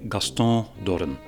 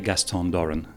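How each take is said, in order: First: The name is said French-style, with a nasal ending. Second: The name is said with an English pronunciation. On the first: "Personally, I say ... you dropped the N at the end ... I made it nasal" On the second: "When I introduce myself in English"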